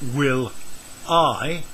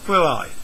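First: The two words are said separately. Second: The L is joined to the I.

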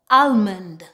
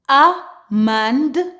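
First: The L sound is clearly pronounced. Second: The L sound is silent. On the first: "With some accent, they actually pronounce the L" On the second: "typically the L in the word is silent"

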